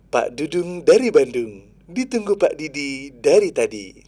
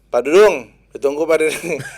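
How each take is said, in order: First: It is said with a smiling, friendly voice. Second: It is said with a flat, unsmiling voice.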